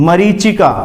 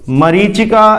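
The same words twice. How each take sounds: The two takes are said the same way.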